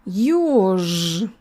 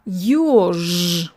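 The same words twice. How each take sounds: First: The final consonant stays voiced throughout. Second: The same.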